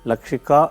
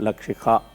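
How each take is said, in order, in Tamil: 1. கடைசி 'ka' சாதாரண, மூச்சு இல்லாத k ஒலி. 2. கடைசி 'ka'வில் கேட்கக்கூடிய மூச்சு h ஒலி இருக்கு. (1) "லக்ஷிகா இல்லை" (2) "அந்த கா சவுண்டும் போது ஹா சவுண்டு வரணும்"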